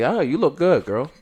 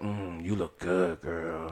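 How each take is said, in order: First: It is said in a friendly, harmless way. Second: It is said in a creepy, leering way.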